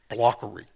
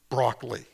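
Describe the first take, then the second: First: The word starts with a 'bl' sound. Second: The word starts with a 'br' sound. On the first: The speaker calls it wrong. "They can't make that kind of pronunciation" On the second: The speaker calls it right. "say broccoli"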